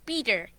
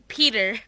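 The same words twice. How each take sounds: First: The P is said in a Bengali-influenced way. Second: The word is said in an American accent. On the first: "Normal pronunciation is Peter" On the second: "American would be Peter"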